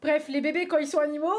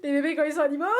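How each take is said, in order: First: Talking through hiccups, louder. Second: Laughing at her own slip, louder. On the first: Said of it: "j'ai le hoquet". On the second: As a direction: say it through laughter. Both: Real, not acted.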